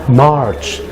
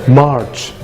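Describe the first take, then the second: No difference in how they are said.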